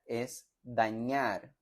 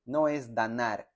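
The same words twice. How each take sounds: First: "dañar" slow, with a clear ny; correct ñ. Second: "danar" with a plain n, marked as wrong. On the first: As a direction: stretch out "dañar" with ñ. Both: Shown as a demonstration. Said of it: "Noten la diferencia entre la ñ y la n".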